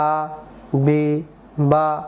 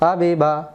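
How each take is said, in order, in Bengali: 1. প্রতিটি শব্দাংশ ছোট ছোট বিরতি নিয়ে আলাদাভাবে বলা হয়। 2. শব্দাংশগুলো মসৃণভাবে জুড়ে একটি শব্দ হয়ে যায়। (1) "এবার ভেঙে ভেঙে" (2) "এবার শব্দে শব্দে"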